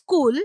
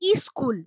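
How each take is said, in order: First: The word starts directly with the s sound. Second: The word starts with an added i vowel. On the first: This is the original form of the word. "যেমন স্কুল" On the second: This is how many people alter the word. "অনেকে বলেন ইস্কুল"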